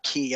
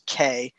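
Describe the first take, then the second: First: The word has the vowel 'ee', like 'key'. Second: The word has the vowel 'ay', like the letter K. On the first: The speaker calls it wrong. "not key. I've been saying it wrong" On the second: The speaker calls it right. "it is pronounced K, like the Spanish what or the letter K"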